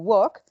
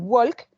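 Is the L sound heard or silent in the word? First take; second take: silent; heard. First: The L sound is silent. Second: The L sound is pronounced. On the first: The speaker calls it right. "yo no pronuncio la L" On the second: The speaker calls it wrong. "no voy a decir walk"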